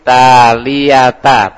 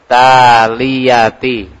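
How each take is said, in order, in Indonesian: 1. Kata ini berakhir dengan vokal 'a'. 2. Kata ini berakhir dengan vokal 'i'. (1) "Bukan ti tapi ta" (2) "Bukan ti tapi ta"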